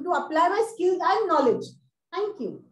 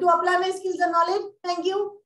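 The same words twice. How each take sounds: First: A clear pause comes before thank you. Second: Thank you follows with no pause. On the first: The speaker calls it right. "Because it's a full stop" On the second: The speaker calls it wrong. "You can't say just uh"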